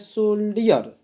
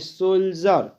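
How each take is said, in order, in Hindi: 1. अंत से पहले बीच की आवाज़ 'dee' जैसी है। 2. बीच में 'j' की आवाज़ है। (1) "कुछ लोग पढ़ते हैं सोल्डियर" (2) "इस डी को हम यहाँ पर उच्चारण हम लोग ज करते हैं"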